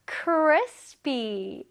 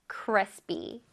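First: Crispy stretched out slowly, falling at the end; drawn-out pronunciation model. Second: Crispy said carefully, lower in pitch; pronunciation model. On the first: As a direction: stretch both syllables of Crispy for learners. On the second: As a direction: model Crispy alone for learners to repeat. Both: Shown as a demonstration. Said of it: "한번 발음해 볼게요".

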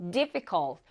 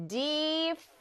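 First: Said in the usual way. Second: "difficult" drawn out as dif, fi, cult; syllable by syllable. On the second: Shown as a demonstration. Teacher demonstrating three syllables, "difficult" syllable by syllable. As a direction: stretch each of the three syllables of "difficult" separately. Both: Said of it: "해가지고 삼음절 이상".

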